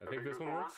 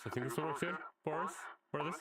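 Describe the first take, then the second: First: Said in the usual way. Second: Tinny vintage radio filter; old-timey radio voice. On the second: Shown as a demonstration. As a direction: sound like an old broadcast. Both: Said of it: "Like an old-timey radio voice".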